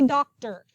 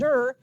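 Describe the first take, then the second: First: It is said as two full syllables. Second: It is said as one short syllable. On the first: The speaker calls it right. "but you say doctor" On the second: The speaker calls it wrong. "I know it's spelled Dur"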